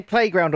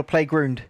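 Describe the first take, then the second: First: Said in the usual way. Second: "playground" with an oo in the second syllable, like "play-groond"; mock-Canadian "playground", ou turned into oo; Canadian pronunciation. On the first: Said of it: "Did he say playground or playground?". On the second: Shown as a demonstration. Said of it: "Yeah, it's Canadian".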